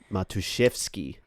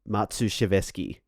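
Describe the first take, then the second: First: The surname is said in three short parts. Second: The surname is said with extra syllables. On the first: The speaker calls it right. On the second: The speaker calls it wrong.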